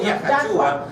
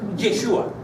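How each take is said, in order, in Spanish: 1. La primera vocal es un sonido 'ah'. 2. La primera vocal es un sonido 'eh'. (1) "no es Yahshua" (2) "es Yeshua. ... No empieza con A, empieza con E"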